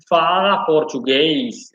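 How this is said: The words are stretched out and dragged slowly. This is how a speaker from Brazil says it. The speaker calls it wrong. "someone from Brazil would literally go like"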